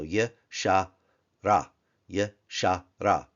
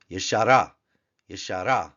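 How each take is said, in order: First: "ye, sha, ra" with a gap after each syllable; three open syllables. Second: Said in the usual way. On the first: Shown as a demonstration. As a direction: sound out "ye, sha, ra" piece by piece. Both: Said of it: "Three syllables, all of them open".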